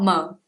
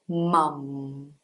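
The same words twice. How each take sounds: First: The final M sound is dropped. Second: The final M sound is clearly pronounced. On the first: The speaker calls it wrong. "not mum" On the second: The speaker calls it right. "The M at the end of the word actually has a sound"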